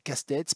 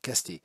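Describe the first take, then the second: First: The name ends with a pronounced consonant sound. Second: The name ends with an open 'é' vowel. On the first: This is how the Landes village name is said. The speaker calls it wrong. "je disais Castex parce que je suis né dans les Landes" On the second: This is how the person herself says it. The speaker calls it right. "il faut dire Casté"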